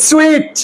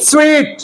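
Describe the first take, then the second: Both takes have the same delivery.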